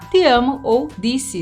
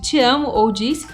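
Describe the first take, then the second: First: The T and D have the Northeastern regional sound. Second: The T and D have the usual non-Northeastern sound. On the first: "o T e o D que eles vão pronunciar de uma forma que é só deles" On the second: "em vez de"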